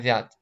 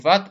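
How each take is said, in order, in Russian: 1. Гласный — мягкое переднее ä. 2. Гласный — твёрдое заднее a. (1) "Так как и мягкое" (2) "не в ад"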